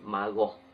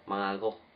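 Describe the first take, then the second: Both takes have the same delivery.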